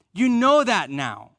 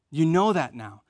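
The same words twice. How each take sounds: First: Slower, higher and louder, leaning on "know"; emphatic. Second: Said in the usual way. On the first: Shown as a demonstration. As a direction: press "You know that now" home to the congregation.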